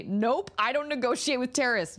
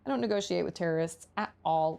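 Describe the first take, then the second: First: Higher-pitched, put-on refusal; mock-firm mom. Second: Said in the usual way. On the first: Mom refusing toddler's lollipop demand, mock-firm voice. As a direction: play a parent firmly shutting down demands. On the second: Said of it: "that's how I am with my toddler".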